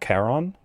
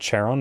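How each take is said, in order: First: The name begins with a hard k sound. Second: The name begins with a soft consonant sound. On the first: "It's always the hard one" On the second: "there is no soft C sound"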